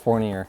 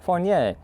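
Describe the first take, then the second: First: The name is said with an American pronunciation. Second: The name is said with a French pronunciation. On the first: "if you're in America, it's Fournier" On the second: "we have French, which is like Fournier"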